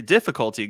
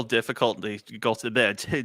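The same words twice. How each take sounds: First: Said in the usual way. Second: Tongue tripping over DIFFICULTY; speech difficulty. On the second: Real, not acted. Host fumbling the technical trouble announcement, tongue-tied on DIFFICULTY. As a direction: garble the ending of DIFFICULTY, then stumble retrying it. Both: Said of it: "as much as my speech difficulty".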